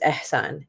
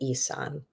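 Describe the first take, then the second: First: The H sound in the middle is pronounced. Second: The H sound in the middle is dropped. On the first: The speaker calls it right. "your name has an H in the middle and it's pronounced" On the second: The speaker calls it wrong. "correct people when they say Isan"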